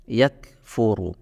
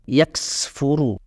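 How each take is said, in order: First: The k has only a light, natural breath. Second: The k has an exaggerated, s-like hiss. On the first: The speaker calls it right. "Jadi biasa saja" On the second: The speaker calls it wrong. "tidak perlu sampai begini ... menggunakan desisnya huruf sin ... jangan lebay"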